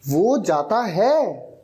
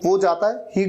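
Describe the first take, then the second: First: It is said forcefully, with strong emphasis. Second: It is said in a plain, neutral way.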